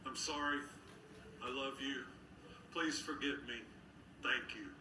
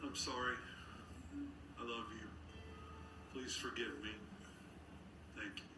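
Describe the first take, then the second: First: A new beginning, said in joy; joyful. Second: Softer, tender like a mother; like his mom. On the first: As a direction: say it with a glad, bright heart. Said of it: "from a place of joy". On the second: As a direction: say it the way a loving mother would. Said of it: "Say it like his mom would say it". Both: Shown as a demonstration.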